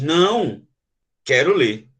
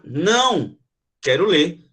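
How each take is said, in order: First: "Não," a break, then a low "quero ler"; "Não," pause, "quero ler" dropping low; pause after não. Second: "Não," then a pause before "quero ler"; a refusal "Não," pause, "quero ler"; pause after não. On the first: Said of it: "alguém tivesse tirando o livro". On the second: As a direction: someone takes the book away: "Não," pause, "quero ler". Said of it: "E na outra". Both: Shown as a demonstration.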